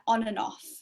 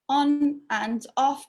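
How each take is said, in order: First: The words run together with the D dropped. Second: Each word is said separately and fully.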